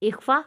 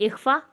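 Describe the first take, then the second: The two takes are said the same way.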